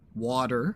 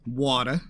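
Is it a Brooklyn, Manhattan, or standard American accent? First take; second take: standard; Brooklyn. First: It is said in a standard American accent. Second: It is said in the speaker's Brooklyn-like accent.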